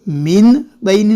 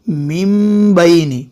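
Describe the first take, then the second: First: मिन बैनी with the n kept; wrong n. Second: Slow मिन बैनी said as mim baini; slowly change the n of मिन to m; m sound. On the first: Quran teacher shows students the wrong reading. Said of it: "नहीं". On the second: Quran teacher gives students the correct reading. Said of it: "मिन नहीं पढ़ेंगे बल्कि". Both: Shown as a demonstration.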